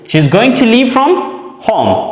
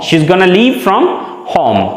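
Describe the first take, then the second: First: Going to is said as two full words. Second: Going to is squeezed into one word, gonna.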